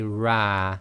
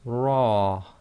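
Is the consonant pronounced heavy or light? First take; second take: light; heavy. First: The consonant is light, with a front vowel. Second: The consonant is heavy, with a back vowel. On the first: The speaker calls it wrong. "You cannot say ra" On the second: The speaker calls it right. "the letter ra with a fatha is pronounced ra"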